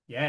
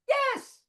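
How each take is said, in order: First: It is said at a deep, low pitch. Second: It is said at a very high pitch.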